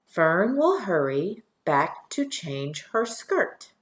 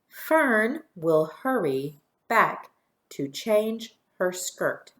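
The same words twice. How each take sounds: First: The words flow together without pauses. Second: Each word is said separately with pauses.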